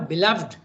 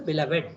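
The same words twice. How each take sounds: First: The final -ed is not a separate syllable. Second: The final -ed is pronounced as a syllable. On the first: "all beloved, you said" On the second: "In some places you pronounce the ed. ... you can say also beloved"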